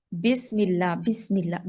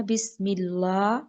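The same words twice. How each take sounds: First: بسم said as besm with a narrow e; the mistaken بسم اللہ; wrong be vowel. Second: بسم with a short clear i, slowly; correct bismillah. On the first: Teacher imitating the students' wrong بسم اللہ. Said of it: "بے نہیں کرنا". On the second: Teacher modelling the correct بسم اللہ. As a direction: open the mouth on بسم اللہ. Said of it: "منہ کھولنا ہے". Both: Shown as a demonstration.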